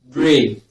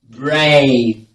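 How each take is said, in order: First: The vowel is one steady sound without gliding. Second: The vowel glides from one sound into another. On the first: The speaker calls it wrong. "most times you all mispronounce this sound as E" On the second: The speaker calls it right. "You glide from A to A"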